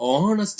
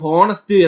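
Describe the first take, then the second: First: The word starts with a vowel, no h. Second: The word starts with an h sound. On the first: The speaker calls it right. "ഓണസ്റ്റ് എന്നാണ് പറയുന്നത്" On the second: The speaker calls it wrong. "ഹോണസ്റ്റ് എന്നാണ് നമ്മൾ എല്ലാരും പറയുന്നത്"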